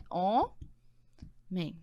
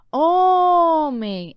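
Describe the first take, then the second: First: HOMEM split as HO, long pause, MEM; syllable by syllable. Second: HOMEM with HO held long, loud and high; stressed syllable stretched. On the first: Teacher separating syllables for the class, HOMEM split in two. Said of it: "Vamos primeiro separar". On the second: Teacher showing the strongest syllable, HO of HOMEM stretched loud. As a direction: lean hard on the HO of HOMEM, stretching it. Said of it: "Qual é a mais forte?". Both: Shown as a demonstration.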